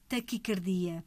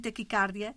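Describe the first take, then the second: First: The stress falls on di, with no open a. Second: The stress falls on car, with an open a. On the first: The speaker calls it right. "A forma correta é taquicardia" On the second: The speaker calls it wrong. "abrirem a vogal e dizerem taquicardia"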